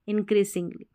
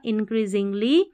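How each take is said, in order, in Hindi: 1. बीच का व्यंजन एक फुफकार वाली s ध्वनि है। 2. बीच का व्यंजन एक गुनगुनाती z ध्वनि है। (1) "ना कि इंक्रीसिंगली" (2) "एस का उच्चारण यहाँ पर ज है"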